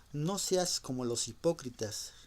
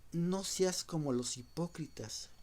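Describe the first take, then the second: Both takes have the same delivery.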